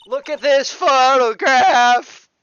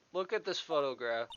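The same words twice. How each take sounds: First: High, very loud, drawn-out bellow; over-the-top shout. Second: Said in the usual way. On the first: Acted. Lawyer orders witness to look at the photo, hammed-up shout. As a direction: belt it out slowly at full volume. Same line repeated as a shout.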